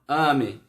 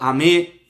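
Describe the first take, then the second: First: The stress is on the first syllable. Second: The stress is on the last syllable. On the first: The speaker calls it wrong. "e não ame" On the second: The speaker calls it right. "tá no final"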